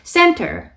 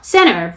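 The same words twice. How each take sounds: First: The t sound is clearly pronounced. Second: The t sound is dropped. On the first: "이렇게 T 발음을 살려서 발음하셔도 괜찮아요" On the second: "이렇게 T 발음 먹으셔도 되고"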